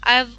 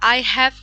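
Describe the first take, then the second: First: The words are shortened into one syllable. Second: Both words are said fully and separately. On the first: "শর্টকাটে বলেন" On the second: "আই হ্যাভ কে না বলে"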